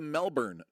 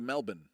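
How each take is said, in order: First: It is said with an American pronunciation. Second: It is said with an Australian pronunciation. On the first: The speaker calls it wrong. "all of you Yanks ... you go" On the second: The speaker calls it right. "You're going to Melbourne"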